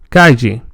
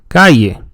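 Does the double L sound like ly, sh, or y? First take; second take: ly; ly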